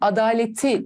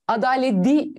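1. Ekten önceki t sert kalır. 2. Ekten önceki t yumuşar. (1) "demem gerekecek. ... Yumuşamayı gerçekleştirmiyorum" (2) "Ama ben bunu adaleti mi diyeceğim?"

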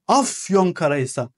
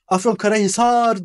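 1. Vurgu birinci hecededir. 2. Vurgu sonraki bir hecededir. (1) "İlk hecede vurgu olur"

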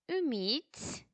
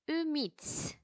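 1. Kelime tek bir birim olarak akıcı biçimde söyleniyor. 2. Kelime tek bir birim olarak akıcı biçimde söyleniyor.

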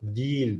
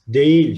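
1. Yumuşak G düşer; önceki ünlü daralır. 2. Yumuşak G, yazıldığı gibi okunur. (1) "Telaffuz ederken değil deriz" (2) "şeklinde yazılır"

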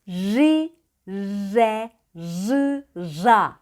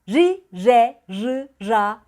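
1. Heceler yavaş söyleniyor. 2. Heceler hızlı söyleniyor. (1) "Çok yavaş da yapabilirsiniz" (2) "Bu kadar hızlı olmak zorunda değil"

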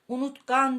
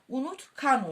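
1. Ek, ötümlü 'g' sesiyle başlar. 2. Ek, ötümsüz 'k' sesiyle başlar. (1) "Unutkan değil" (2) "Buradaki G, K'ye dönüşür. Unutkan olur"

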